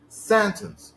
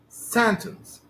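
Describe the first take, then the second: First: The stress is on the first syllable. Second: The same.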